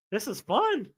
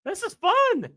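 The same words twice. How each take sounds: First: Said in the usual way. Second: Fun squealed much higher. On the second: Shown as a demonstration. Streamer repeating it for the chat, high squeal.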